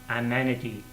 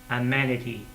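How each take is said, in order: The two takes are said the same way.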